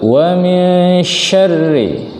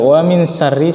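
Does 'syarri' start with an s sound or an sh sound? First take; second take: sh; s. First: The word begins with a thicker sh sound. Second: The word begins with a thin s sound. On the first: The speaker calls it right. "Yang betul wa min syarri" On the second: The speaker calls it wrong. "ketika dibaca wa min syarri salah"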